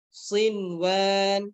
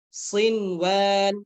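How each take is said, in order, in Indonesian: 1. Bunyi n diucapkan dengan jelas sebelum w. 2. Bunyi n diucapkan dengan jelas sebelum w.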